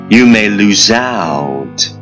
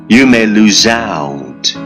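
Both takes have the same delivery.

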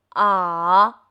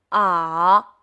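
First: The pitch dips down and then rises. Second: The same.

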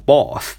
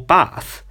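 First: It is said with a British accent. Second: It is said with an American accent.

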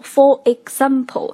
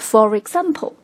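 First: The words are said without a linking r. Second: An r sound links for into example.

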